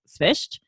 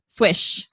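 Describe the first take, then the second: First: It starts with s-v and ends in sht. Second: It sounds like swish, ending in sh. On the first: This is the original family pronunciation. "if you want the actual way to pronounce it" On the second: This is a simplified version one relative uses. "like my mom... she just says swish. Like swoosh"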